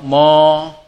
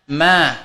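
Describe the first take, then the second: First: The vowel is rounded, sounding like o. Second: The vowel is a full open a. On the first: The speaker calls it wrong. "tidak boleh kita membacanya ma atau mo" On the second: The speaker calls it right. "harus menjaga itmamul harokat ma"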